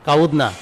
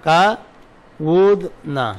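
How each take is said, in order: First: Said in the usual way. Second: কাউদনা stretched very slowly, each sound held; কাউদনা pulled out very long so every letter is heard; slow spelled-out form. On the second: Shown as a demonstration. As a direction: draw out কাউদনা syllable by syllable, like showing the root to students. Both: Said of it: "এই কুদনা মূলত ছিল কাউদনা".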